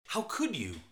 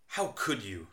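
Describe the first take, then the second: First: Dismayed, hurt reproach; shocked and upset at the dead fish; angry surprise. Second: Teasing fake outrage, not really angry; joking reproach over a forgotten book; sarcastic mock anger. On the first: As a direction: let the disbelief sting a little. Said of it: "used to show anger and surprise". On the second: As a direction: pretend to be upset, just joking. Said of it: "used in a sarcastic way". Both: Shown as a demonstration.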